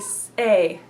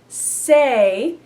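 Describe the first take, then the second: First: The vowel starts with a catch in the throat. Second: The vowel flows smoothly after the s sound. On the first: "begin it with a glottal stop" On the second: "instead of say"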